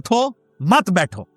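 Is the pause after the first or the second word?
first. The pause comes after the first word.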